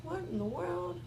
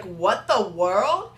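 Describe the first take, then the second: First: Muttered. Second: Drawn out. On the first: Real, not acted. Muttered aside at lip gloss. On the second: Retold or imitated. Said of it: "and I was like".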